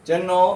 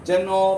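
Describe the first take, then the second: No difference in how they are said.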